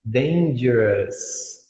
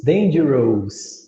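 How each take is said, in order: First: "Dangerous" said slowly, ending in a short "us" with no O; correct English pronunciation. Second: "dangerous" said slowly with a full O sound, as written; wrong spelling-based reading. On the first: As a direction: drop the O in "Dangerous", just "-us". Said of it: "Não, tira o O, deixa só o S". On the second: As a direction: read "dangerous" as spelt, with an audible O. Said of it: "Vai falar dangerous". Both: Shown as a demonstration.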